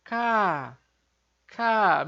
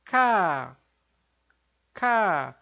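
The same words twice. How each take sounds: First: "K" held back and light; a restrained, gentle "K"; soft plain K. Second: "K" louder and tight; a firm, pressed "K"; tense double K. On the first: Teacher contrasting the soft K again. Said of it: "meio que se segurando pra pronunciar fraquinho". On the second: Teacher contrasting the stronger double K. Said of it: "Agora o som mais forte". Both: Shown as a demonstration.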